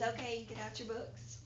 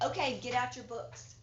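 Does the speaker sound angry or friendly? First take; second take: friendly; angry. First: It is said in a friendly, willing tone. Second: It is said in an angry, unwilling tone. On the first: The speaker is glad to be there. The speaker calls it right. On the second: The speaker does not want to be there. The speaker calls it wrong.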